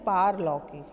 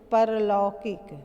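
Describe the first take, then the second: First: The first vowel is long. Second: The first vowel is short. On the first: The speaker calls it right. "पारलौकिक है।" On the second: The speaker calls it wrong. "तो परलौकिक कोई शब्द नहीं है"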